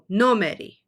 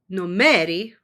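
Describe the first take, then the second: First: The stress is on the first syllable. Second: The stress is on the second syllable. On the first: The speaker calls it right. "always puts the stress on the very first vowel" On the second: The speaker calls it wrong. "If you put the stress on the second vowel"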